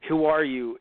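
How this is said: It is said with strong, passionate feeling. The speaker calls it right. "In a very, you know, passionate, meaningful way"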